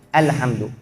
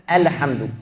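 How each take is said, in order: The two takes are said the same way.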